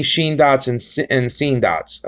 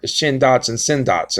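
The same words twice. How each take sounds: First: "sheen" and "seen" with a long ee; long-vowel pronunciation. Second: "shin" and "sin" with a short i; short-vowel pronunciation. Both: Shown as a demonstration. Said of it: "Or shin dots and sin dots".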